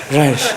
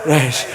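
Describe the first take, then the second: No difference in how they are said.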